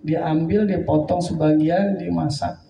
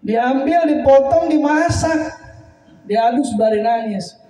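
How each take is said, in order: First: Said in the usual way. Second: Much higher and louder, each word rising; emotional outburst. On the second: Real, not acted. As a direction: cry the steps out in anguish. Preacher re-tells with emotion. (berseru tinggi dan keras penuh haru)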